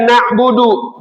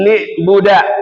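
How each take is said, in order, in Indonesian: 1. Kata itu punya vokal a, u, dan u. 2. Kata itu diawali dengan vokal i, berakhir a.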